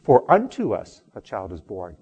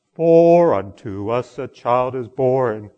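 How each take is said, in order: First: Everyday spoken line, "unto" punched louder; stress on unto. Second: "For" loud and long drawn out, slow line; stress on For. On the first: Shown as a demonstration. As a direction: put the weight on "unto", keep "For" short. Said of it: "where the emphasis is on the word". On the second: Retold or imitated. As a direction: lean heavily on "For", stretching it out slowly. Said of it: "he has the emphasis on the word".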